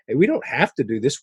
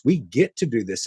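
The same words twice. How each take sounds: First: "have" stressed as the word to reject. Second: "get" stressed against "have". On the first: Church members reject obligation, stress on "have". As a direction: lean on "have" to set up the contrast. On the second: Church members embrace serving, stress on "get". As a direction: lean on "get" as the answer. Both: Retold or imitated. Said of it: "adopted that get to mentality".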